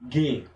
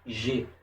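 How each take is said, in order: First: The consonant is a hard g sound. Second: The consonant is a soft zh sound. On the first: The speaker calls it right. "A pronúncia é G" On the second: The speaker calls it wrong. "nunca será G"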